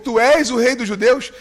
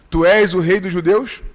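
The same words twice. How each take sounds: First: The question is asked with stronger, more forceful emphasis. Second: The question is asked in a plain, calm way.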